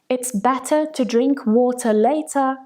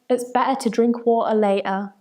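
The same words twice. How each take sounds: First: The middle T sounds are clearly pronounced. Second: The middle T sounds are glottal stops.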